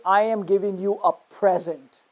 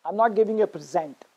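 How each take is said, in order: First: PREsent, stressed on the first syllable. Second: PreSENT, stressed on the second syllable. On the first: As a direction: say "present" as the noun, punching "pre". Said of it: "stress on the first syllable". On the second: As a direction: say "present" as the verb, weight on "sent". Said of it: "stress on the second syllable". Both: Shown as a demonstration.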